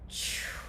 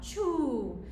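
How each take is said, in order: First: The word is whispered. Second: The word is voiced aloud. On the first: "with a whisper" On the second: "audibly with sound"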